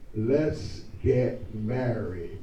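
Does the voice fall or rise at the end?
fall. The voice falls at the end.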